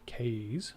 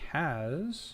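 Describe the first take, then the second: First: It begins like the letter name 'K'. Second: It does not begin like the letter 'K'. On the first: The speaker calls it right. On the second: The speaker calls it wrong. "I keep saying it wrong"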